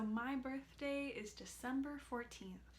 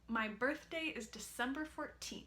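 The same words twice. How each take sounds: First: The consonants are touched very lightly. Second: The consonants are pressed with firm contact. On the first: "that felt pretty light to me" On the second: "take the strategy away ... that felt tougher there"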